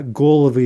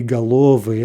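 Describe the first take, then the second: First: "golovy" with stress on GO; first-syllable stress. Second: "galovi" with stress on the middle syllable, LO; theoretical middle stress. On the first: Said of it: "golovy is more likely". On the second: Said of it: "we expect the stress to jump back". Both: Shown as a demonstration.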